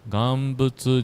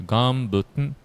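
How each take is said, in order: First: The word ends with a clear 'tsu' sound. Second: The word ends with a nasal 'n' sound. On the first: The speaker calls it wrong. "not instead of pronouncing butsu" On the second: The speaker calls it right. "we say ganbuten, yeah, ganbuten, like a tn"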